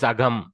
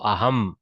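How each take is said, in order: First: The middle consonant is a g-like sound. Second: The middle consonant is an h sound. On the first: The speaker calls it wrong. "the natural way to go is Agam" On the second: The speaker calls it right. "So now she has trained herself to struggle out of that. So Aham"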